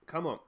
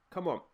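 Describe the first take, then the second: No difference in how they are said.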